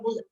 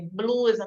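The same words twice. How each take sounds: First: The word is said with the cluster simplified. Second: The word is said with the full bl cluster. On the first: This is how the child actually says it. The speaker calls it wrong. "não fala, fala blusa" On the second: This is the target word the child should say. The speaker calls it right. "foi falar é blusa"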